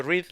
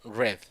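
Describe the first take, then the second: First: "read" said with a long ee, like reed. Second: "Read" said like red, short e. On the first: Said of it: "No lo pronuncio read". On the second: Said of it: "cómo yo pronuncio el pasado". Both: Shown as a demonstration.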